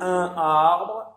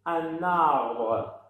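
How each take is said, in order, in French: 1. Les deux mots sont prononcés séparément, sans liaison. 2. Le son n se lie au mot suivant. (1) "لا نقول ان arbre" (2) "نربط الحرف الاخير من الكلمه الاولى"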